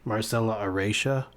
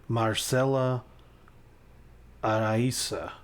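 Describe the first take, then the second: First: The name is said with an English accent. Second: The name is said with a Spanish accent.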